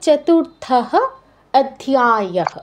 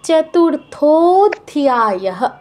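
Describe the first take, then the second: First: Two separate words, each ending in a breathy h. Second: One joined word with an o linking sound. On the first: The speaker calls it wrong. "দুটো বিসর্গ যুক্ত করে বললে সেটা শুনতে সুন্দর শোনা যায় না" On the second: The speaker calls it right. "সন্ধি করে বললে"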